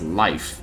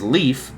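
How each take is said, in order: First: The vowel sounds like 'eye', as in life. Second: The vowel sounds like 'ee', as in leaf. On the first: The speaker calls it right. "it's Life" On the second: The speaker calls it wrong. "I was pronouncing it as Leaf, but no"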